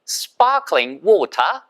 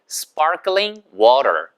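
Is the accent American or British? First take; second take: British; American. First: It is said with a British accent. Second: It is said with an American accent.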